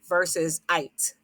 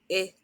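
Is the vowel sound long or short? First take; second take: long; short. First: The vowel says its long name sound. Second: The vowel has its short sound. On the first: The speaker calls it wrong. "Our scholars would know not to say it" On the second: The speaker calls it right. "the vowel is going to say a short name"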